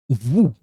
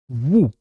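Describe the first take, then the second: Both takes have the same delivery.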